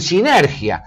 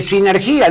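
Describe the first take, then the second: First: "sinergia" slowed, mimicking the misplaced stress; "sinergia" mispronounced on purpose, slow; mock wrong stress. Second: "sinergia" said plainly with its correct stress; "sinergia" the right way, plainly. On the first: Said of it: "dicen sinergia". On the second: Shown as a demonstration. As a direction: give "sinergia" its proper stress, no fuss. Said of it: "en lugar de decir".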